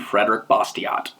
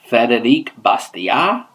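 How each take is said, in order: First: The name is pronounced in an English way. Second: The name is pronounced in a French way.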